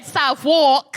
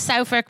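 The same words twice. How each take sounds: First: The first syllable sounds like the word 'south'. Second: The first syllable does not sound like 'south'. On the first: The speaker calls it wrong. "I kept going South. So, I've been saying" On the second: The speaker calls it right. "I've only just learned how to pronounce Southwark"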